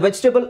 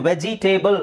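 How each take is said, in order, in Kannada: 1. ಕೊನೆಯ ಭಾಗ ಚಿಕ್ಕ ಸ್ವರದಿಂದ ಕಡಿಮೆಯಾಗಿದೆ. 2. ಕೊನೆಯ ಭಾಗ ಪೂರ್ತಿ 'table' ಪದದ ಹಾಗೆ ಕೇಳಿಸುತ್ತೆ. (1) "ಅದರ ಸರಿಯಾದ ಉಚ್ಚಾರಣೆ" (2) "ವೆಜಿಟೇಬಲ್ ಅಂತ ಹೇಳೋದ್ರ ಬದಲು"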